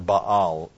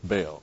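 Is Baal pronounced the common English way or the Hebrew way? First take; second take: Hebrew; common English. First: The name is said with its Hebrew pronunciation. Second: The name is said with the common English pronunciation. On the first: "actually, the Hebrew way of pronouncing that" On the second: "most of us just say"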